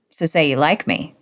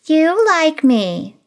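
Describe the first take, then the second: First: Said in the usual way. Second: High, slow, teasing you like me; sly twist. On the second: Acted. Stephanie teasingly flips Greg's request back, high and slow. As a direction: turn his words back on him.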